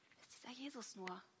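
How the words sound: The question sounds fearful and doubtful. The asker worries something bad will happen. "jemand ängstlich skeptisch"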